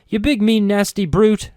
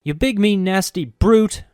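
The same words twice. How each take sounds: First: High, loud, half-hearted scolding; mock insult. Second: Brute drawn out slow and rising at the end; stress on brute. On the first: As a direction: play mean but can't quite. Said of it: "I suppose I could try". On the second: Shown as a demonstration. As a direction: lean hard on brute, slowly. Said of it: "Put more accent on brute".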